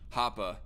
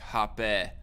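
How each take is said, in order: First: The name ends in a short 'ah' vowel. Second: The name ends in a short 'eh' vowel. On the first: The speaker calls it right. "It's more like a short a sound" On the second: The speaker calls it wrong. "like with a short e, not a long e"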